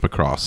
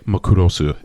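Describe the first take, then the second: First: It is said with English pronunciation. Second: It is said with Japanese pronunciation. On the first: "So it's Macross" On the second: "if I wanted to say it like the Japanese"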